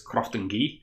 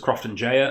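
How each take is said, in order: First: The name ends with a one-syllable 'gee' sound. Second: The name ends with a two-syllable 'jaya' sound. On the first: This is reportedly how the distillery says it. The speaker calls it right. "Apparently, according to Tommy Boyd from A D Rattray, it's" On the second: This is how the speaker long said it. The speaker calls it wrong. "I always thought it was"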